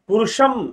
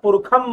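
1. बीच का व्यंजन 'sh' ध्वनि है। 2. बीच का व्यंजन 'kh' ध्वनि है। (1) "षटकोण वाला श लिखा होता है पुरुष शब्द में" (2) "वैदिक संस्कृत के अंदर उसको ख भी पढ़ते हैं"

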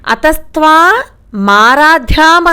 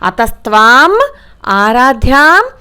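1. విరామం m శబ్దానికి ముందు ఉంటుంది. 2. విరామం m శబ్దానికి తర్వాత ఉంటుంది. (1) "అతస్త్వా మారాధ్యాం అని చదువుతున్నారు. మారాధ్యాం కాదు" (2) "అలా అయినా చదవాలి"

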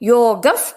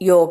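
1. ಈ ಪದ f ಶಬ್ದದಲ್ಲಿ ಕೊನೆಯಾಗುತ್ತೆ. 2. ಈ ಪದ ಉಸಿರಿನ h ಶಬ್ದದಲ್ಲಿ ಕೊನೆಯಾಗುತ್ತೆ. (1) "ಅದಕ್ಕೆ ಯೋಗಫ್ ಅಂತ ಹೇಳಬೇಕು" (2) "ಯೋಗ ಪದದ ಜೊತೆ ವಿಸರ್ಗ ಸೇರಿ ಯೋಗ ಅಂತ ಹೇಳ್ತೇವೆ"

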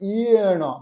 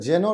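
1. শব্দটি y ধ্বনি দিয়ে শুরু। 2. শব্দটি j ধ্বনি দিয়ে শুরু। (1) "কিন্তু হবে ইয়েন" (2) "উচ্চারণটা যেন রয়েছে"

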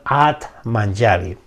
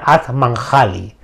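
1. La j suena como una j suave del inglés. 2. La j suena como una jota española fuerte. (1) "pero en sánscrito sería la pronunciación" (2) "Se escribe con J, sería At Manjali"

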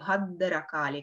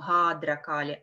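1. Согласный удлиняется, с небольшой паузой. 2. Гласный перед d произносится растянуто, долго. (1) "мы делаем бхадракали, как будто бы мы ее удлиняем, утяжеляем и делаем небольшую паузу после нее" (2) "мы не тянем бхадракали"

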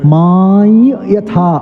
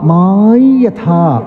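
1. ഈ നാസൽ ശബ്ദം നാസലൈസ്ഡ് y ആയി ഉച്ചരിക്കുന്നു. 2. ഈ നാസൽ ശബ്ദം നാസലൈസ്ഡ് y ആയി ഉച്ചരിക്കുന്നു.

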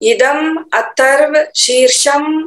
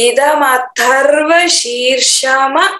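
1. शब्द एक नंगे व्यंजन पर अचानक खत्म हो जाते हैं। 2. हर शब्द का अंत एक पूरे स्वर से होता है। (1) "लेकिन यहाँ गलती होती है अक्सर, ... ऐसे करके बोलते होंगे" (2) "तो हम पूरा अक्षर उच्चारण करनी चाहिए।"

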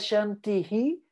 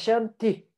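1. A palavra termina com uma sílaba 'hi' acrescentada. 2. A palavra termina sem sílaba acrescentada. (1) "não é Shantihi" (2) "é Shanti"

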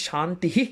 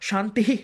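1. শব্দটি 'h' দিয়ে শেষ হয় এবং একটি প্রতিধ্বনি-স্বর থাকে। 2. শব্দটি 'h' দিয়ে শেষ হয় এবং একটি প্রতিধ্বনি-স্বর থাকে।

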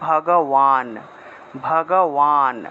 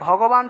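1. মাঝের ব্যঞ্জনটি 'w'-এর মতো শোনায়। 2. মাঝের ব্যঞ্জনটি 'b'-এর মতো শোনায়।

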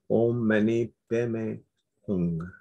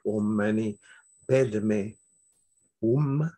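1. Le mantra se prononce à la façon tibétaine. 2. Le mantra se prononce à la façon sanskrite. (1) "si on le prononce à la tibétaine" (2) "Si on le prononce en sanskrit"

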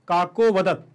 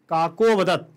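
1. 'vadat' से पहले का स्वर बस हल्का सा सुनाई देता है। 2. 'vadat' से पहले का स्वर बस हल्का सा सुनाई देता है।

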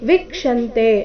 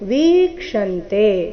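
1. ಮೊದಲ ಸ್ವರ ಹ್ರಸ್ವ. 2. ಮೊದಲ ಸ್ವರ ದೀರ್ಘ. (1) "ಇಲ್ಲಿ ವೀಕ್ಷಂತೆ ಅಂತ ಇಲ್ಲ" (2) "ವಿ ದೀರ್ಘ ಇದೆ"

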